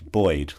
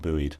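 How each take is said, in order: First: It has a British pronunciation. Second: It has an American pronunciation. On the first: The speaker calls it right. "buoyed was the word you're looking for" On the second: The speaker calls it wrong. "not buoyed"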